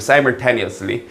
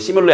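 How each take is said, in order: First: It is the full word said in English. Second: It is a cut-off Korean-style 'shimyule' sound. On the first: The speaker calls it right. "발음 조심하시고요" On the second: The speaker calls it wrong. "시뮬레 아니고"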